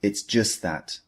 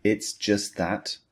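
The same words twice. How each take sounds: First: "It's just that" at normal pace, "just" with no T; natural model, T of "just" dropped; natural linked phrase. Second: "It's just that" said slowly, T of just dropped; slow it down, swallowing the T of "just"; careful teacher model of "It's just that"; slow model phrase. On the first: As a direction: run "just" into "that" without the T. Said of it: "So we say". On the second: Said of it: "when we use the full phrase". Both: Shown as a demonstration.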